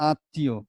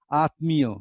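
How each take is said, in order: First: আত্মীয় as aat-ti-yo; spoken pronunciation. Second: আত্মীয় exactly as written, m sounded; spelling pronunciation. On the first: Teacher contrasts speech with spelling, আত্মীয় with silent m. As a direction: double the t in আত্মীয়, drop the m. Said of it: "কিন্তু আমরা বলছি কি". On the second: Teacher imagines reading by the spelling, আত্মীয় with audible m. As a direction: pronounce আত্মীয় as aat-mi-yo. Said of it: "লেখার মতো যদি উচ্চারণ করতাম". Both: Shown as a demonstration.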